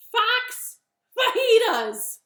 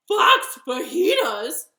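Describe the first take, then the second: First: High, loud, slow announcement; bunny's reveal. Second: Loud, high shocked echo; horrified fox. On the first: Bunny names Gruffalo's favorite food to fox, slow and loud. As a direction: stretch out the menu triumphantly. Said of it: "Bunny said". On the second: Fox learns he's on the menu, horrified cry. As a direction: repeat it in loud, hammed-up horror. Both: Acted.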